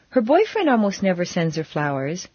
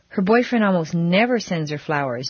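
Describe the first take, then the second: First: The stress falls on the word boyfriend. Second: The stress falls on the word never. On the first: Someone other than the boyfriend sends flowers. "but her sisters always do" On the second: Flowers come hardly ever, whatever happens. "no matter what"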